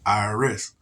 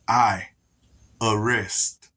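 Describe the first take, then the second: First: The letters are run together quickly. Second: The parts are said slowly and separately. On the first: It sounds like the name of the tax agency. "You say that fast" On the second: It sounds like a threat to arrest someone. "But you break it down"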